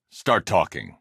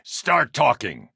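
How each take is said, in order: First: Said in the usual way. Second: High, slow, raised shout; shouted demand. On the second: Acted. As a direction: force the words out at him. Interrogation line, shouted take.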